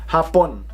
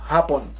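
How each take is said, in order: The two takes are said the same way.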